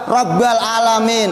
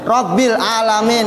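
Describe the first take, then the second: First: The b is followed by an a vowel. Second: The b is followed by an i vowel. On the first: A mistake that does not invalidate the recitation. The speaker calls it wrong. "atau fathah ba" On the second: The form written in the Quran. The speaker calls it right. "Seharusnya di Quran apa tulisannya?"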